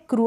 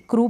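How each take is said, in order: First: क्रू said as "kryoo"; wrong-reading demo, क्रू as "kryoo"; mispronounced with y-glide. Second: Said in the usual way. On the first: Shown as a demonstration. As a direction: slip a "y" before the vowel of क्रू. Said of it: "क्रू नहीं पढ़ देंगे". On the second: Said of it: "क्रू पढ़ेंगे".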